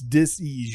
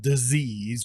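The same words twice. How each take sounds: First: The middle consonant sounds like an S. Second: The middle consonant sounds like a Z. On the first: "Take the Z out of disease" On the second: "when you pronounce it like that, it's almost like they changed the first S to a Z"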